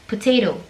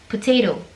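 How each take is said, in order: First: It is said with an American accent. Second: It is said with an American accent.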